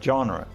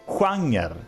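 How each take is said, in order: First: It is said with an English pronunciation. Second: It is said with a Swedish pronunciation. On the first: "same as in English, right?" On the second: "but we pronounce it genre"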